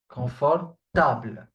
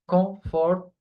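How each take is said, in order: First: The word is pronounced with French sounds. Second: The word is pronounced like the English word. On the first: The speaker calls it right. "not comfortable. Confortable" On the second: The speaker calls it wrong. "try to not do the mistake of pronouncing it comfortable"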